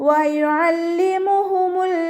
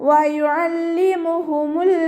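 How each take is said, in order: Both takes have the same delivery.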